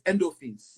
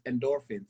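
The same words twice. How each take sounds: First: The word is said in a Nigerian accent. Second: The word is said in an American accent. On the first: "when we're talking to our Nigerian folks, it's endorphins" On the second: "for our U S, you know, folks, it's endorphins"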